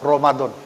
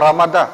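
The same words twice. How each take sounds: First: The word is said with rounded 'o' vowels. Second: The word is said with open 'a' vowels. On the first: This is a newer way of saying it. "Ini cara baca yang baru ya? ... O O gitu" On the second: This is the familiar way of saying it. "Cara bacanya bukan Ramadan"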